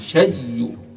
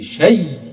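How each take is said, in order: First: The final sound ends with a faint, brief vowel. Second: The final sound ends with no vowel at all. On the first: "وهو الروم" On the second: "وهو الإسكان"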